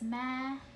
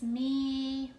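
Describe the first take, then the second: First: The vowel is a short e sound. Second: The vowel is a long e sound.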